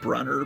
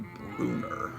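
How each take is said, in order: First: The name is pronounced in an English-style way. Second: The name is pronounced in a German-style way. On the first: This is how the speaker always said it. The speaker calls it wrong. "I always pronounced it Brunner" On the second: This is probably the correct form of the name. The speaker calls it right. "it's probably Brunner. German name"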